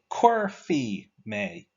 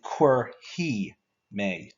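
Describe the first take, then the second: First: The verb ending is said with an f sound. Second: The verb ending is said with an h sound. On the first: "some people pronounce it as fee" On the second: "some people pronounce it as he"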